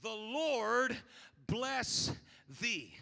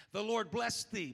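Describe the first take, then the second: First: The Lord... bless... thee, each word set apart with pauses; slow solemn blessing. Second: Said in the usual way. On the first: Shown as a demonstration. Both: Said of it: "this prayer determines those things".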